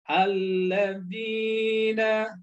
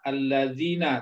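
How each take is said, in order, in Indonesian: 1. Vokal sebelum suku kata terakhir dibaca panjang. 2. Vokal sebelum suku kata terakhir itu pendek. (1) "tapi harus" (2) "jangan dibaca"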